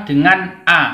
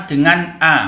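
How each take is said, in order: The two takes are said the same way.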